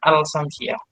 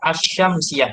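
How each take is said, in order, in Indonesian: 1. Huruf l terdengar jelas sebelum s. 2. Huruf l tidak dibaca; bunyi sh digandakan. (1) "bukan al-Samsiah" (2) "dia bacanya asyamsiah"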